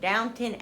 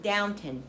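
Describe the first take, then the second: First: The second syllable sounds like 'tun'. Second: The same.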